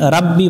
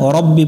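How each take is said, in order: First: The first vowel is an open 'a' sound. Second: The first vowel is a rounded 'o' sound. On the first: The speaker calls it wrong. "এখানে রাব্বি পড়া যাবে না" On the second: The speaker calls it right. "রব্বি পড়তে হবে"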